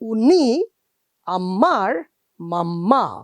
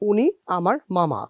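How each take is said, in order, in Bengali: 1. 'mama' শব্দটি জোরে চাপ দিয়ে বলা হয়েছে। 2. 'mama' শব্দটি সমতল ও সমানভাবে বলা হয়েছে। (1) "এরকম কিন্তু বাংলায় বলি না" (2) "আমরা বলি"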